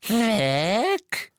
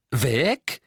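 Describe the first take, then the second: First: High, louder croaking elf voice. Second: Said in the usual way. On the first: A narrator's reading. Creature telling Harry the locket is gone. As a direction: croak it fearfully. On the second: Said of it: "wiederholte Harry".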